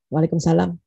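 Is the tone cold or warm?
cold. It sounds cold, as if to a stranger.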